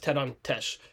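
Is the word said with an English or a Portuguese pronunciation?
Portuguese. The word is said with a Portuguese pronunciation. "to say it properly is"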